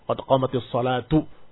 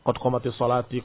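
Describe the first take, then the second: First: The last word ends with a u vowel. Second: The last word ends with an i vowel. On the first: The speaker calls it right. "Dirafakkan karena dia pelaku dari qomat" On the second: The speaker calls it wrong. "Daripada dikasih harokat, salah"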